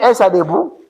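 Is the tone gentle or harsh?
gentle. It is said in a gentle, kind tone.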